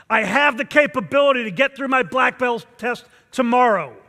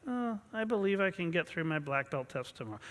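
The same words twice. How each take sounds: First: Loud, powerful declaration; intense incantation. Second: Soft, half-hearted and unconvinced; weak affirmation. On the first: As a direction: make the whole body believe it. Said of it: "Everybody should be saying it like Ephraim". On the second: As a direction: say it without any conviction. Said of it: "An affirmation would be saying". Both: Shown as a demonstration.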